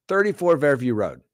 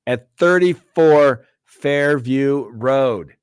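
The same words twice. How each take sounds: First: Said in the usual way. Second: Slow, louder, higher and drawn out, each word of "thirty-four Fairview Road" weighted; dramatic reveal. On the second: Acted. Host introducing the Karen Read case address, slow and dramatic. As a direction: announce the address like a true-crime teaser.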